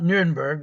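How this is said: The name is said with a German pronunciation. The speaker calls it wrong. "not Nuremberg. That's the German pronunciation"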